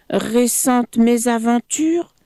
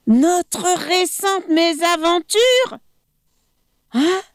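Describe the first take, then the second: First: Said in the usual way. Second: High, scornful repeat of his words; mocking echo of the crocodile; incredulous echo. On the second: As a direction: throw the phrase back in disbelief. Monkey echoes mockingly.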